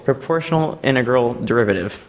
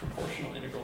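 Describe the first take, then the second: First: Said in the usual way. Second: Whispering proportional integral to oneself; whispered. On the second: Real, not acted. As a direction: breathe proportional integral with no voice, very soft. Recalls the acronym under breath.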